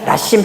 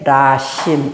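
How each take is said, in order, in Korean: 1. 첫 번째 모음은 짧고 평평하게 발음해요. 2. 첫 번째 모음은 길게 늘려서 발음해요. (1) "이렇게 그냥 라심 하지 마시고" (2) "조금 길게 라심 이렇게 읽으시면 돼요"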